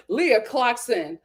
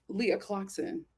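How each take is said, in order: First: Leah clocks in said slowly with weight; drawn out, savoring the moment; slow, deliberate announcement. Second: Said in the usual way. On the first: Shown as a demonstration. Slow dramatic build to gossip.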